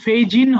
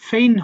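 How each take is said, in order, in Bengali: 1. শব্দের ভেতরে g উচ্চারণ হয়। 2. শব্দের ভেতরে কোনো g উচ্চারণ হয় না। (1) "এটা কিন্তু ফেইজিন হবে না" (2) "জির উচ্চারণটা নাই, ফেইন হবে"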